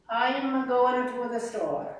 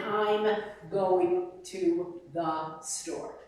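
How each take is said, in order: First: Each word separate, jaw working; "I am going to the store" with every sound chewed and spaced; choppy English. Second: "I'm going to the store" slow and legato, one line; медленно и слитно, без движения губ; smooth Italian-style flow. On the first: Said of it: "they automatically lie". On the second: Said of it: "They can't imagine". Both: Shown as a demonstration.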